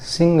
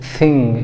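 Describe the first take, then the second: First: सिंग with a plain sharp s; सिंग, tongue behind the teeth for s; wrong s sound. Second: थिंग opening on a hissed th; correct th sound. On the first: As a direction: say सिंग with s in place of th. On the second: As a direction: say थिंग with tongue between the teeth. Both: Shown as a demonstration. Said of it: "सिंग भी नहीं बोलना है".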